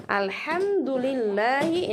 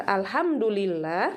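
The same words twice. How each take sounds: First: "Alhamdulillahi" slowly with light throat h; correct small ha. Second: "alhamdulillah" with a heavy plain h; wrong big ha. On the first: Teacher gives the praise meaning, "Alhamdulillahi" slow with small ha. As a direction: recite "Alhamdulillahi" with a clean small ha, stretched. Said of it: "ini artinya segala puji bagi Allah". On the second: Teacher warns of changed meaning, "alhamdulillah" with wrong big h. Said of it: "membacanya huruf ha besar". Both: Shown as a demonstration.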